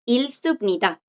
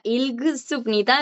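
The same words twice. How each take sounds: First: "Ilsupnida" with the G silent; blocked G. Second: "Ilgsupnida" with a G squeezed between L and S; G forced in. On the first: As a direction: go from L straight to S in "Ilsupnida". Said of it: "le está bloqueando". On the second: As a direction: sound every consonant in "Ilgsupnida". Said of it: "es muy difícil de decir". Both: Shown as a demonstration.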